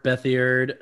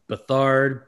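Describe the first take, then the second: First: Bethiard said in three syllables, BETH-ee-ard; name pronunciation variant. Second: Bethard said buh-THARD; name pronunciation variant. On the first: Host trying another version, Bethiard as BETH-ee-ard. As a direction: add an "ee" inside Bethiard. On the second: Host guessing quarterback's name, Bethard as buh-THARD. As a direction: stress the second syllable of Bethard, long "ard". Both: Shown as a demonstration. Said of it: "however you wanna pronounce his name".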